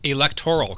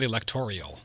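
First: The word ends in '-toral' with no extra vowel. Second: The word ends in '-torial' with an extra 'ee' sound. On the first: The speaker calls it right. "Electoral college, not electorial" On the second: The speaker calls it wrong. "not electorial"

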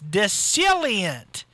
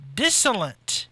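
First: The word is said with four syllables. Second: The word is said with three syllables. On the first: The speaker calls it right. "It's dissilient" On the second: The speaker calls it wrong. "I pronounced that wrong"

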